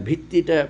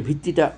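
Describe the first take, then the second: No difference in how they are said.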